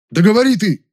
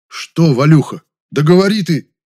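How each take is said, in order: First: Much higher, loud indignant outburst. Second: Louder, higher, impatient prompting; losing patience. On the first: Man urges stalling friend to speak, indignant. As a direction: burst out, demanding that he talk. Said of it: "возмутился я". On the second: Man prods his mumbling friend, losing patience. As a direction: press him to get on with it. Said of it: "Я уже начал терять терпение". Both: A narrator's reading.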